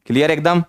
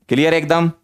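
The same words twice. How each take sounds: The two takes are said the same way.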